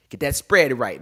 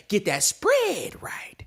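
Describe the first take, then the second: First: Said in the usual way. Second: Whisper. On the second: Acted. Whispered tip.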